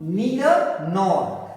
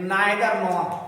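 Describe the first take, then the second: First: The first vowel of 'neither' sounds like 'ee'. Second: The first vowel of 'neither' sounds like 'eye'. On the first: The speaker calls it right. "सो आप लोगों को मैं correct करता हूं" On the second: The speaker calls it wrong. "But it is a wrong pronunciation."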